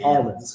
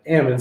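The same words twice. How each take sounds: First: The L sound is clearly pronounced in the word. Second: The L sound is dropped from the word. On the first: This is how locals in the valley do not say it. The speaker calls it wrong. "you don't say almonds because you knock the L out of them" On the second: This is how locals in the valley say it. The speaker calls it right. "as you say in the valley"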